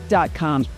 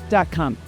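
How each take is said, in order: The two takes are said the same way.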